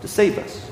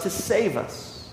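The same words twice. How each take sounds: First: A breathless whisper of the same words; whispered echo. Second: Slow and much softer, letting it land; softened emphasis. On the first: Preacher whispering the refrain to the congregation. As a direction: whisper it as the closing thought. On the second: Preacher telling the congregation softly and slowly. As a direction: drop the voice to almost nothing on the rescue. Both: Real, not acted.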